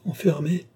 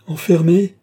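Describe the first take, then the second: First: First, restrained cry of protest; high plaintive cry. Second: Loud, high cry of protest; full-voiced outraged cry; shouted cry. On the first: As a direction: cry out high, holding the volume back. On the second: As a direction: shout it over the other person, pitched up. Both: A narrator's reading. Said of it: "criait Lorenza sans écouter".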